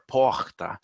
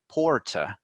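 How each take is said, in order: First: The r in the middle sounds like an h. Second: The r in the middle sounds like an r. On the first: This is how people from Rio say it. "it kind of turns into an H with people from Rio de Janeiro" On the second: This is how people from Sao Paulo say it. "those in Sao Paulo would say porta, so they pronounce the R"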